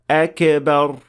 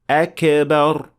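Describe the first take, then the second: First: The k is released with a bouncing echo. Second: The same.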